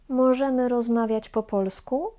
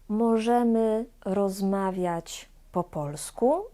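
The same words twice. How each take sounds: First: The phrase is spoken quickly. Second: The phrase is spoken slowly. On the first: "I szybko" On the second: "dwa razy wolno"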